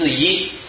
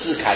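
First: The second syllable is pronounced yi. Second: The second syllable is pronounced kai. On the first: The speaker calls it right. "是智一" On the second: The speaker calls it wrong. "你念错了，这不是智凯"

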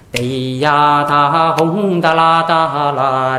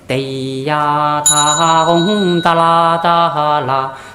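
First: It is recited at a faster pace. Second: It is recited at a slower pace.

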